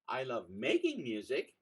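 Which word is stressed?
making. The word "making" carries the stress.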